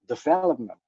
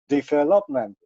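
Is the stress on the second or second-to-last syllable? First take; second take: second; second-to-last. First: The stress is on the second syllable. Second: The stress is on the second-to-last syllable. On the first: This is the English way of saying it. "in English, you have to do it on the second syllable" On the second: This is the Indonesian way of saying it. "in Bahasa Indonesia you have the accent on the next to the last"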